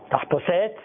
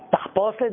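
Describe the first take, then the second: First: It is stressed like French. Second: It is stressed like Hebrew. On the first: The speaker calls it wrong. "זה בצרפתית" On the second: The speaker calls it right. "זה בעברית"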